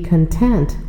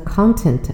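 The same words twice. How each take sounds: First: It is said with the adjective pronunciation. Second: It is said with the noun pronunciation. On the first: It means satisfied. "前面两个呢发音发的都是content 做形容词" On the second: It means the contents of something. "发音发生了变化，那么在这个句子当中呢content 是名词"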